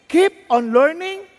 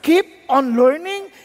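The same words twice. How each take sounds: First: Slow, weighted, stress on keep; slow emphatic. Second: Slow, weighted, rise on keep; slow emphatic. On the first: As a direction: repeat it slowly for emphasis. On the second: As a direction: drill it in slowly. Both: Shown as a demonstration. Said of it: "God Himself is telling us".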